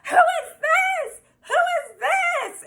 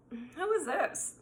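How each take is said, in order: First: Very high, drawn-out screech; mock screaming. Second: Soft, slow, controlled question; cool, calm, collected. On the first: Imitating the girl who bursts in on them, mock screaming. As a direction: imitate a jealous ex shrieking, stretching each word. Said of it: "screaming at him". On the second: Retold or imitated. Guest hiding her freak-out from the intruder, outwardly calm. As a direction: keep it quiet and composed, drawn out. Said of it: "calm, collected".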